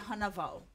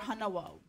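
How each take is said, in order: First: A v sound is slipped between the vowels. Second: A w sound is slipped between the vowels. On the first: "you'll just slip in the W, which is a V sound" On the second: "or hanawo"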